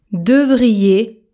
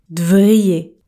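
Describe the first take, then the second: First: Said in the usual way. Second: "devriez" with the E dropped, said "d'vriez"; contracted "devriez". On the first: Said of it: "Je ne prononce pas le E". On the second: Shown as a demonstration. Teacher shows learners the casual "devriez". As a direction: swallow the E in "devriez". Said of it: "je contracte un seul mot, le verbe".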